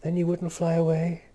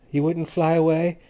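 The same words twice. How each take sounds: First: "you" stressed, not "away". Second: "away" carries the question; stress on away. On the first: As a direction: lean on "you" instead. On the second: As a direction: lean on "away", rising question. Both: A narrator's reading. Repeated question, stress shifts.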